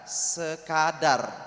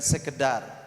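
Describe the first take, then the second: First: The second vowel is an open 'a' sound. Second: The second vowel is an 'e' sound. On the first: The speaker calls it right. "Adar gitu ya, adar bukan edar" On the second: The speaker calls it wrong. "Bukan sekedar"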